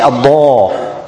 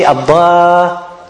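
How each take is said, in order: First: The alif vowel sounds full and heavy. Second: The alif vowel sounds thin and light. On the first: The speaker calls it right. "you make it tafkhim" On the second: The speaker calls it wrong. "You don't say abda"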